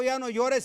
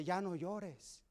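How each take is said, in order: First: Said in the usual way. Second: Más suave y lento, con ternura; consuelo tierno. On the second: Retold or imitated. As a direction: como quien consuela a un niño que llora. Jesus comforts the crying man. (Jesús consuela al hombre que llora, suave y lento)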